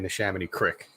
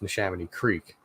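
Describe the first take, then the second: First: The last word sounds like crick. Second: The last word sounds like creek. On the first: This is the Philly-accent way to say it. "like I won't say Neshaminy Crick" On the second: This is the speaker's own way to say it. "It's Neshaminy Creek"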